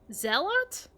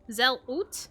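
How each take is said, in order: First: The final syllable has a full 'ot' vowel. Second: The final syllable has a reduced 'ut' vowel. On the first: "And the end is Ot?" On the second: "Zelut is my best guess"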